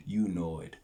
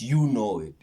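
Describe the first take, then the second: First: Said in the usual way. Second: Punchy and louder, stress on you; emphatic. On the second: Real, not acted. To viewers, punching the catchphrase hard. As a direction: hit "you know it" firmly. Repeating the sign-off phrase.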